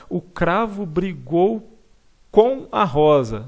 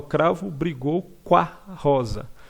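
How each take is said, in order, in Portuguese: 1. Cada palavra é pronunciada completamente e separadamente. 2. 'Com a' se funde numa única sílaba encurtada. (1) "Não, mas a gente não fala assim" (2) "A gente fala"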